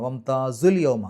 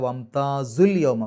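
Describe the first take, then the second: No difference in how they are said.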